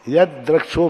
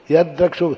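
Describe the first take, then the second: First: यद द्रक्षो again with a held double द; यद द्रक्षो with a long द; doubled da. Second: यद द्रक्षो with the द held double; यद द्रक्षो, द doubled and held. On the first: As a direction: show the double द once more. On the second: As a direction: lean on the doubled द in यद. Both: Shown as a demonstration. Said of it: "तो दा double हो जाता है यहाँ".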